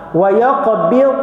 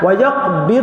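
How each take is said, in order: First: The word ends softly without a released bounce. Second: The final consonant is released with a bounce. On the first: The speaker calls it right. "habis macam tu" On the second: The speaker calls it wrong. "jangan wa yaqbid, ha, bid tu tak nak"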